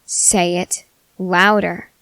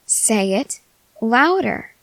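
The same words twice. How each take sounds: First: Slow, lower, weighted "louder"; stern command. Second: Insistent demand. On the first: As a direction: order it word by word, leaning on "louder". Repeats demand after mumbled answer. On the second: Demanding a louder love confession. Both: Acted.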